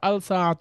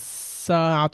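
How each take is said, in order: First: The l is clearly heard before the s. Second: The l merges into a doubled s sound. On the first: The speaker calls it wrong. "আমরা কিন্তু বলছি না" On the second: The speaker calls it right. "তাসদিদ দিয়ে দিই"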